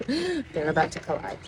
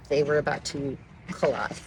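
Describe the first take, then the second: First: "They were about to collide" said again through laughter; laughing repeat. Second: Said in the usual way. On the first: Shown as a demonstration. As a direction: laugh it out the second time.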